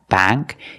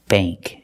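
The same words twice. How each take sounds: First: The vowel sounds like the one in cat. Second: The vowel sounds like the one in plate. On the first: The speaker calls it wrong. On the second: The speaker calls it right. "Use the long A sound"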